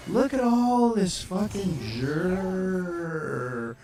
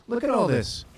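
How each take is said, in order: First: Loud and high, words stretched very long; slow, booming marvel at the sight; drawn-out amazement. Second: Loud, higher-pitched "look at all this"; excited exclamation. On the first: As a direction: drag the last word right out. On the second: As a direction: call out the discovery, loud and high. Pointing excitedly at the map. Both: Real, not acted.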